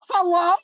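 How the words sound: It is said as Tanner from Project Fear.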